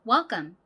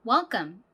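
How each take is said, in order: The two takes are said the same way.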